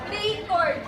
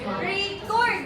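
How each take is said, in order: First: The stress is on the first syllable. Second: The stress is on the second syllable. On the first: It is used as a noun. "and the stress put in the the re" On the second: It is used as a verb. "The stress put in the cord"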